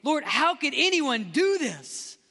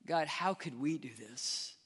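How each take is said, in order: First: High, slow cry of outrage to God; re-enacted angry prayer. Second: Low, soft, chastened prayer; hushed and low, confessing; humbled realization. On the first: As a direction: protest in anger, pitch raised, words drawn out. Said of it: "I would get so angry". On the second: Retold or imitated. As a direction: ask it quietly, turning the blame inward. Humbled realization after his angry prayer.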